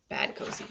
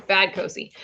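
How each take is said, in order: First: Whispered bad Cozy, scolding herself. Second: Said in the usual way. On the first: Shown as a demonstration. Host scolding herself after a slip, whispered. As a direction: hush it out at yourself.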